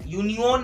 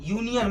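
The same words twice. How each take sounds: First: The last syllable has a full o vowel. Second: The last syllable has a weak uh vowel. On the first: The speaker calls it wrong. "ऐसे नहीं बोल रहे हैं" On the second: The speaker calls it right. "मतलब अ बोल रहे हैं"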